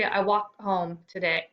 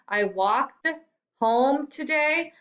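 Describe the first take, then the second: First: The final t sound of walked is dropped. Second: The final t sound of walked is pronounced. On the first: The speaker calls it wrong. "I'm not going to hear you say" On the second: The speaker calls it right. "I'm going to hear you say walked"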